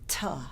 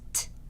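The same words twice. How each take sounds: First: The consonant has an extra vowel sound after. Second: The consonant is short with no vowel after. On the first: The speaker calls it wrong. "not T" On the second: The speaker calls it right. "make them short and crisp"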